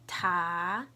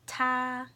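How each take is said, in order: First: It is said with the second tone. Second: It is said with the first tone.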